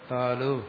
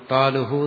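First: The word ends plainly on 'u' with no breath. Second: The word ends with an added breathy 'hu' sound. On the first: The speaker calls it right. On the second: The speaker calls it wrong.

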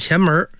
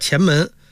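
First: 门 is said with an r-coloured erhua ending. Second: 门 is said plainly without an r-coloured ending. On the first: It sounds like an ordinary small door. The speaker calls it wrong. "不是前门" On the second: It names the Qianmen gate. The speaker calls it right. "前门叫前门"

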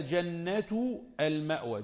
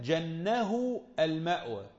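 First: The first word ends in a t sound, jannatu. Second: The first word ends in an h sound, jannahu. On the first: It names the Garden of Refuge. "جنة بالضم هكذا هي قراءة الجمهور" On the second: It says the refuge covered and sheltered him. "جنه يعني جنه غطاه وظلله"

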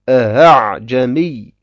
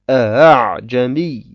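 First: The second hamza is softened and eased. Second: The second hamza is softened and eased.

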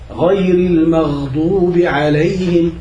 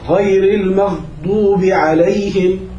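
First: The gh sound flows on continuously. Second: The gh sound is cut off abruptly. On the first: The speaker calls it right. "لازم يطلع صوت الغين مستمر" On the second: The speaker calls it wrong. "بنطقوهم شديدتين ... هذا غلط"

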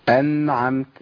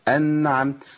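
The two takes are said the same way.

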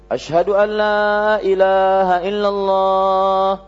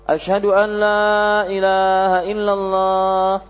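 The two takes are said the same way.

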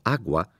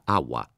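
First: The g sound is clearly pronounced. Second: The g sound is relaxed away entirely.

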